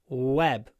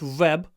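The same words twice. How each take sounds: First: It begins with a w sound. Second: It begins with a v sound. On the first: The speaker calls it right. "but w. W with a low chin" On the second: The speaker calls it wrong. "Not web. Not v"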